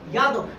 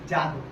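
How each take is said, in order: First: The word begins with a Y sound. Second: The word begins with a J sound. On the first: This is how the word is written. "लिखा जाता है यह" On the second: This is how the word is spoken. "बोला जाता है ज"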